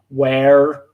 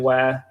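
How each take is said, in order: First: It is said American-style with a strong R. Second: It is said British-style without a pronounced R.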